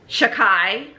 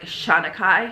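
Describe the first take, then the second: First: The name is said shortened, missing a syllable. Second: The name is said in full. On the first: The speaker calls it wrong. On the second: The speaker calls it right.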